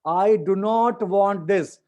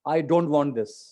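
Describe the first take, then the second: First: Do not is said as two full words. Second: Do not is contracted into one quick word.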